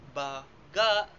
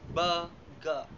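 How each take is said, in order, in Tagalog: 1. Nasa ikalawang pantig ang diin. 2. Nasa unang pantig ang diin. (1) "nilalapatan ng diin sa ikalawang pantig" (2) "nilalapatan ito ng diin sa ikaunang pantig"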